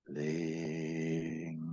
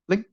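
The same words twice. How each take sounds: First: It is said gently and allowed to ring out. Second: It is said sharply, as if taken by surprise.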